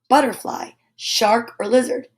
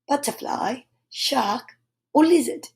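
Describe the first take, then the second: First: The R sounds are pronounced, American style. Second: The R sounds are dropped, English style.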